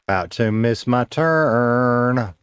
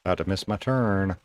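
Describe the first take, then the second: First: Half-speed, stretching "turn" into a long held sound; drawn out. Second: Said in the usual way. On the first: Real, not acted. Streamer playfully repeating about a missed turn, drawn out.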